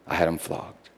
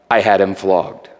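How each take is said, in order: First: Much quieter repeat. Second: Said in the usual way. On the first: Acted. Pilate repeating, voice dropping away.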